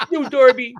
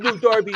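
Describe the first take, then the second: First: Higher, louder scolding of a pet; firmer dog scolding. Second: High scolding pet voice; talking to a dog. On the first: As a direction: scold the puppy harder. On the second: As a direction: scold him like a puppy. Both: Acted.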